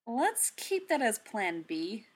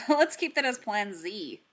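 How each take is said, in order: First: Slow, deliberate, ending on a rise; measured and wry, drawing it out; dry suggestion. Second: A little louder, falling to a firm close; topping the joke with a dry correction; wry correction. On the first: Steve to Natasha, a slow wry suggestion. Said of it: "Steve told her". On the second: Clint correcting Steve, dry and a bit louder. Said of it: "Clint corrected". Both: A narrator's reading.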